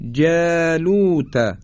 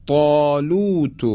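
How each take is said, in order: First: جالوت with thin fronted "jæ", drawn out; higher, slow جالوت, keep جا light; light tarqiq. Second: طالوت with thick dark ط, long backed vowel; heavy tafkhim. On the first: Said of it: "نازک ادا شد". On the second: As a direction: recite طالوت slowly, طا full and rounded. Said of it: "اینجا باز درشت ادا شد". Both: Shown as a demonstration.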